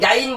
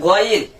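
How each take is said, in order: First: The first vowel is a long open aa. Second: The first vowel is short, end stretched. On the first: The speaker calls it wrong. "গাইন বলা যাবে না" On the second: The speaker calls it right. "বলতে হবে গইন"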